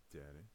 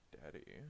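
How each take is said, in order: First: Daddy said oddly, dropping the first D; a strange take on Daddy; Daddy as edi with a rise; odd pronunciation. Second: Said in the usual way. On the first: Shown as a demonstration. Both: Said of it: "I do not say it like that".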